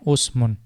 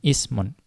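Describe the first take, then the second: First: The first vowel is a 'u' sound. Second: The first vowel is an 'i' sound. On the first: The speaker calls it wrong. "ada juga yang bacanya usmun" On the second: The speaker calls it right. "lebih kuat pendapatnya adalah dengan ismun"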